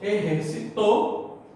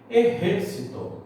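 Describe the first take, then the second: First: The stress is on the final syllable. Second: The stress is on the third-to-last syllable. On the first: Someone exercised in the past. "exercitou é aguda, ou seja, ela é oxítona" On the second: An army. "Agora ela é uma esdrúxula"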